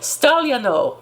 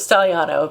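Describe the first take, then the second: First: The name is said with Italian pronunciation. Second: The name is said with American pronunciation. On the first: "supposed to be pronounced" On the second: "that's how we are in, the, in America"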